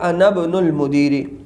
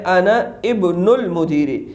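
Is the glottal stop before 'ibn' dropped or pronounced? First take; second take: dropped; pronounced. First: The glottal stop before ibn is dropped. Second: The glottal stop before ibn is pronounced. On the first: "ये गिर जाएगा और हो जाएगा" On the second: "असल में क्या है"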